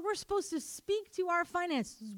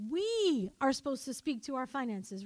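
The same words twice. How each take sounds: First: Said in the usual way. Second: "We" held long and leaned on; stress on WE. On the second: Real, not acted. Preacher telling congregation whose job it is, stressing "We". Repeats it, stressing who must speak.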